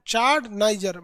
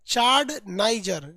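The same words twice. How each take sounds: First: Said in the usual way. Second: चाड नाइजर drawn out slowly, चाड stressed with a falling end; slow drill. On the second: Shown as a demonstration. (चाड नाइजर को बहुत धीरे-धीरे, चाड पर ज़ोर देकर) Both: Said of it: "फटाफट बोलते जाइए".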